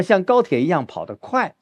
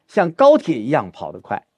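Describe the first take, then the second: First: Final 快 held and hit hard; misplaced stress on 快. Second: 高铁 carries the weight, 快 left light; stress on 高铁. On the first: Teacher shows student the wrong way, 快 stressed. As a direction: land the weight on the last word, 快. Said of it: "我们不是说". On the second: Teacher explains stress by train comparison, 高铁 stressed. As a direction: punch 高铁, let 跑得快 fall away. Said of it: "我们不是说像高铁一样跑得快". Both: Shown as a demonstration.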